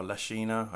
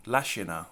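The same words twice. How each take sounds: First: Lashina with a long middle ee, la-SHEE-na; alternative pronunciation guess. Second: Lashina with stress up front, LASH-ina; first pronunciation guess. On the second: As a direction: say Lashina as LASH-ih-na, short middle vowel. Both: Shown as a demonstration. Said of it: "I don't know how it's pronounced".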